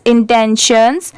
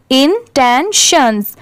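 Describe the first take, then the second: First: Said in the usual way. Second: Intentions drawn out slowly as in-ten-shuns; slow, spaced teaching version of intentions; syllable by syllable. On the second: Shown as a demonstration. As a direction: break intentions into three separate syllables. Teacher breaks word into syllables.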